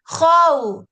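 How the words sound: The pitch rises, like shouting. The speaker calls it wrong. "bukan how, how. Itu beda nggak nadanya?"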